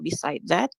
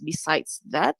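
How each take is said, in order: First: The first word ends without an s sound. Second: The first word ends with an s sound. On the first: The speaker calls it wrong. "not beside that" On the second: The speaker calls it right. "it should be pronounced as besides that"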